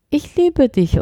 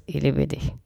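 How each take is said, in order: First: „Ich liebe dich“ deutlich höher und betont; higher, emphatic. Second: „Ich liebe dich“ kurz, leise und tief hingeworfen. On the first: (hoch und betont gesprochen) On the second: (kurz und leise: „Ich liebe dich“) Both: Shown as a demonstration.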